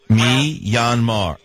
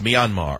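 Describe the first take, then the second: First: The word is said slowly, part by part. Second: The word is said quickly, run together. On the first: "First, say me" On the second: "Now, say it fast"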